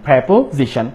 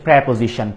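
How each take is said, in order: First: The first syllable is said like 'pre'. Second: The same.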